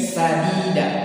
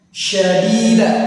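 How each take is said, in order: First: The first consonant is a plain 's' sound. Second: The first consonant is a 'sh' sound. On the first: The speaker calls it wrong. "membaca huruf shin menjadi huruf sin" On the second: The speaker calls it right. "Yang tadi harus syadida"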